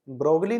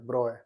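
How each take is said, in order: First: The g and l sounds are pronounced. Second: The g and l sounds are silent. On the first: The speaker calls it wrong. "ब्रोगली नहीं होता है" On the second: The speaker calls it right. "Correct pronunciation Louis डी ब्रॉय होता है"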